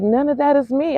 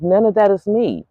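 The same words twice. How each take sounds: First: Higher and rising on that; lifted incredulous repeat; higher, rising disbelief. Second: Flat dismissal. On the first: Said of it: "I was like". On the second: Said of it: "but I'm like". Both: Retold or imitated.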